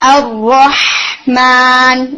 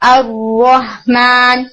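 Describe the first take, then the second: First: The h sound is drawn out and strong. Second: The h sound is cut short and weak. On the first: The speaker calls it right. "اسے تھوڑا رن کریں ساؤنڈ کو تاکہ وہ پرومیننٹ ہو" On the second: The speaker calls it wrong. "جلدی ختم کریں گے تبھی وہ پرومیننٹ نہیں ہوگا"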